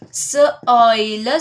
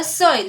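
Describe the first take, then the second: First: S-oil, split into s and oil; segmented. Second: Said in the usual way. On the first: Shown as a demonstration. Teacher splitting the word for students. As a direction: break it into s and oil.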